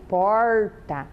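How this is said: The word is said in a Paraná accent. "Nós, aqui no Paraná, falamos porta"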